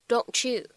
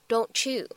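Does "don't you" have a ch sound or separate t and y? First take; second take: ch sound; ch sound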